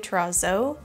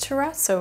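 First: The double z is said with a z sound. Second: The double z is said with a ts sound. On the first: The speaker calls it wrong. "I've seen people say terrazzo" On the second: The speaker calls it right. "That's how you say terrazzo"

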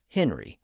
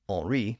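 First: The name is pronounced the English way. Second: The name is pronounced the French way. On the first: "I'll just use the English pronunciation as Henry" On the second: "to use a more French pronunciation"

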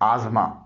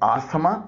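First: The 'th' sound is silent. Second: The 'th' sound is pronounced. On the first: The speaker calls it right. "इसमें टी एच silent है और एस से जे की आवाज निकल रही है" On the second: The speaker calls it wrong. "इसे आस्थमा न बोलिएगा"

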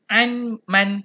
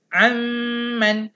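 First: The n is kept separate before the m. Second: The n merges into the m, lips closed. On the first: The speaker calls it wrong. "jangan baca an man, salah" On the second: The speaker calls it right. "Dia kena terus masuk huruf mim. Ha, kena rapat mulut"

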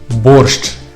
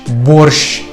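First: The final sound is a hard sh then ch. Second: The final sound is one soft, long sh. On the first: This is how it sounds in Ukrainian. The speaker calls it right. "звучить твердо і складається з двох звуків – «ш» та «ч»" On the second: This is how it sounds in Russian. The speaker calls it wrong. "вимовляється як пом'якшений «ш»"

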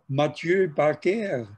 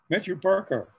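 First: The name is said in a French way. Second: The name is said in an English way.

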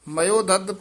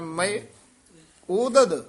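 First: It is run together as 'mayo-dad'. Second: It is split into two parts after 'mae'. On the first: This is an alternative reading. "ਦੂਸਰਾ ਪਾਠ ਹੈ" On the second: This is the main accepted reading. "ਮੁੱਖ ਪਾਠ"

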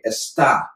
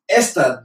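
First: The stress is on the second syllable. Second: The stress is on the first syllable. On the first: It means is. "Está with the accent on the A" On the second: It means this. "without an accent"

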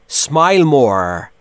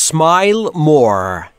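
No difference in how they are said.

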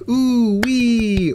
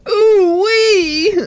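First: It is said in a plain voice. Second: It is said in a Mister Meeseeks voice.

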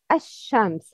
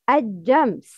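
First: The word has a sh sound. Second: The word has a j sound. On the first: The speaker calls it right. "The right is ash-shams" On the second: The speaker calls it wrong. "The wrong is ajams"

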